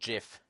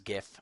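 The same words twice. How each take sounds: First: The word starts with a J sound. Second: The word starts with a hard G sound. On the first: The speaker calls it wrong. "It's not GIF. It doesn't start with a J" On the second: The speaker calls it right. "So it's GIF. Uh, like in good"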